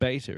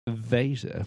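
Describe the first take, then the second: First: The word begins with a B sound. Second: The word begins with a V sound. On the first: The speaker calls it wrong. "The beta is not beta" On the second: The speaker calls it right. "it's veta with a V"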